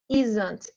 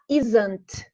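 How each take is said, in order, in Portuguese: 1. Falado como uma palavra só, contraída. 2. Falado como uma palavra só, contraída.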